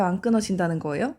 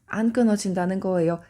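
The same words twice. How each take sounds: First: 안 끊어진다는 거예요 asked as a question, rising at the end. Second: 안 stressed, 거예요 falling as a settled answer; firm statement. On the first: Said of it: "의문의 형식을 취했지만 답은 정해져 있는". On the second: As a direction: state it firmly, leaning on 안. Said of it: "답은 정해져 있는". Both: Shown as a demonstration.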